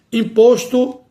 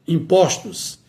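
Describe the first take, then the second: First: "imposto" with closed ô, pitched high. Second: "impostos" with open ó, falling. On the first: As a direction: say "imposto" as im-PÔS-to, higher. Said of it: "o O permanece com o timbre fechado". ("imposto" com ô fechado, em tom mais alto) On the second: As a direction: say "impostos" as im-PÓS-tos. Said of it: "passa para o timbre aberto". ("impostos" com ó aberto, em tom descendente) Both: Shown as a demonstration.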